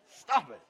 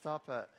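First: It is said forcefully, with conviction. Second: It is said weakly, without conviction.

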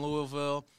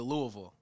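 First: The name is pronounced the way an outsider says it. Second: The name is pronounced the way locals say it. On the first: The speaker calls it wrong. "I can't say it right. I'm too West Coast" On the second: The speaker calls it right. "you're supposed to say Louisville"

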